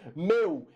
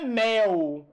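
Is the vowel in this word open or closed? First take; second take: closed; open. First: The diphthong is said with a closed vowel. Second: The diphthong is said with an open vowel. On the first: The speaker calls it right. "esse ditongo ele é fechado" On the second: The speaker calls it wrong. "Não é mel"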